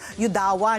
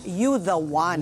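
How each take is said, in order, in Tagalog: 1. Pinagdikit ito bilang isang pangalan. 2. Tatlong magkakahiwalay na salita ang pagkakasabi nito. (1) "Yun ang pagka-pronounce ko" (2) "I didn't know that it was ano pala"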